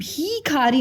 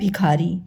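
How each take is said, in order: First: The first vowel is held long. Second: The first vowel is kept short. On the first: The speaker calls it wrong. "हम भीखारी नहीं बोलते" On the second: The speaker calls it right. "छोटी की मात्रा में उच्चारण में थोड़ा कम समय लगता है"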